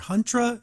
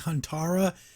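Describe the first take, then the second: First: The name is said with two syllables. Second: The name is said with three syllables. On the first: The speaker calls it wrong. "In the past, I was calling her Huntra" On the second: The speaker calls it right. "It's actually Huntara"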